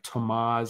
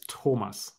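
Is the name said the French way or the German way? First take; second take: French; German. First: The name is pronounced the French way. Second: The name is pronounced the German way. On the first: "which is more the French" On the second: "if you say it in German"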